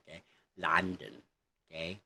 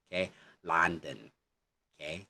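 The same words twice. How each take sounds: The two takes are said the same way.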